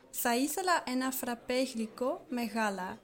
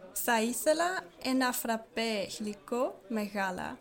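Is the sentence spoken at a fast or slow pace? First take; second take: fast; slow. First: The sentence is spoken at a natural, quicker pace. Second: The sentence is spoken slowly and deliberately. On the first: "we're gonna speak naturally" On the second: "that was the slow version"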